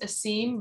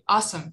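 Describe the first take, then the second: First: The name does not sound like 'awesome'. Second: The name sounds like the word 'awesome'. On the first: The speaker calls it wrong. "I probably pronounced that wrong" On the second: The speaker calls it right. "It actually pronounced like awesome in English"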